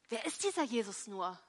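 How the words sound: The question sounds indignant and outraged. The asker is offended by his arrival. "Vielleicht war da jemand empört"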